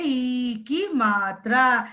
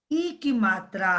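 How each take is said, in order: First: ई drawn out slowly before की मात्रा; slow, lengthened ई; long vowel ई. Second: ई kept short before की मात्रा; quick short ई; short vowel ई. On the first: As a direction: stretch the vowel in ई. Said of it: "जिसे हम long vowel कहते हैं". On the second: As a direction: say ई briefly, without stretching. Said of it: "इसे हम short vowel कहते हैं". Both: Shown as a demonstration.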